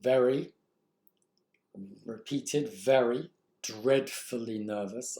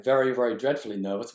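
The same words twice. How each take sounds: First: Very ... very ... dreadfully nervous, slowly with pauses; deliberate slow read of the dashes; slow, halting reading. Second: Very, very dreadfully nervous, fast and louder; hurried jittery reading; rushed nervous read. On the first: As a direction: lean on each word, dragging it out. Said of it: "Look at these dashes". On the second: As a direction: gabble it as if anxious. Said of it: "the repetition of the diction here". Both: Shown as a demonstration.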